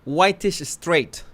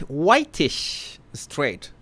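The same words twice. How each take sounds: First: Said in the usual way. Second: Whitish straight drawn out very slowly and softer in disbelief; mock incredulous. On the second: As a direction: savor the absurd label, stretching each word. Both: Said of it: "how did they call me".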